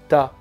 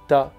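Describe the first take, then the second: Both takes have the same delivery.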